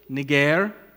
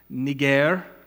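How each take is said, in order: First: The name is said in its Greek pronunciation. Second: The name is said in its Greek pronunciation.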